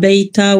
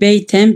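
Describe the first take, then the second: First: The word ends with a plain vowel. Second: The word ends with an n sound. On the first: The word is read at a pause. "durakta ise" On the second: The word is read within running speech. "beyten bir ev"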